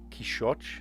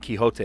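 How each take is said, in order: First: The name has a Portuguese pronunciation. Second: The name has its usual English pronunciation.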